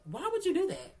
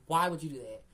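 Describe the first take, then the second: First: High, louder "Why would you do that?"; exasperated. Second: Said in the usual way. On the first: Real, not acted. Repeating to Fran, a high exasperated "Why would you do that?". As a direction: throw it up in disbelief.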